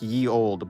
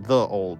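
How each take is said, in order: First: The first word begins with a y sound. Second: The first word begins with a th sound. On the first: The speaker calls it wrong. "now we think about it like saying like ye old" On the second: The speaker calls it right. "but it's actually the old"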